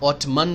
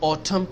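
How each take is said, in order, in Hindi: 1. शब्द के अंत में n की ध्वनि है। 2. शब्द के अंत में n की ध्वनि नहीं है। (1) "ऑटमन नहीं कहते, एन साइलेंट है" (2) "उसको ऑटम कहते हैं"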